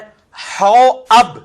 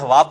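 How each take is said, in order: First: A glottal break separates 'hau' and 'ab'. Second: The middle is a smooth long 'a' sound. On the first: The speaker calls it right. "ये लफ्ज है हौ अब, हवाब नहीं है" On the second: The speaker calls it wrong. "लोग उसे हवाब पढ़ रहे होते हैं"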